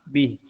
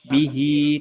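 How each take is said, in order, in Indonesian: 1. Kata ini diakhiri dengan bunyi konsonan. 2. Kata ini diakhiri dengan bunyi vokal. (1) "tapi bih" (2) "berarti bukan bihi"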